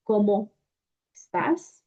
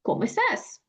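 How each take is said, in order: First: Cómo and estás said apart with a break; separated words. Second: "¿Cómo estás?" run together as one chunk; linked phrase. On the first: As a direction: pause between "¿Cómo" and "estás". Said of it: "Of course not". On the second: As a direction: glide "cómo" straight into "estás". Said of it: "We actually say it". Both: Shown as a demonstration.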